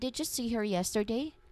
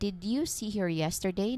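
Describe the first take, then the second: First: The d and y blend into a j sound. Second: The d and y sounds are said separately. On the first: "Now practice the natural assimilated form" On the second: "say very slowly and clearly"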